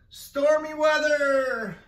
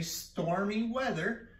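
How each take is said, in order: First: Loud, high, slow drawn-out call; called command. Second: Said in the usual way. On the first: Shown as a demonstration. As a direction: call it like a storm warning. Teacher calls game command. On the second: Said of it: "If I say".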